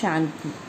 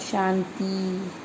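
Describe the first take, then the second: First: The final vowel is a short i. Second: The final vowel is a long ee. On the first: The speaker calls it right. "हमारे शुद्ध शब्द हैं" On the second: The speaker calls it wrong. "लेकिन बोला क्या जाता है"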